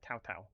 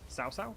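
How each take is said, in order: First: The name begins with a T sound. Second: The name begins with an S sound. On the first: "Pretty sure you pronounce it as a T" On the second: "It's pronounced with an S"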